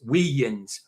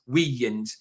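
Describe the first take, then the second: Both takes have the same delivery.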